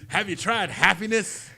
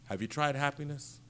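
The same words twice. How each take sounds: First: It is said in an upbeat, happy tone. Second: It is said in a plain, normal tone.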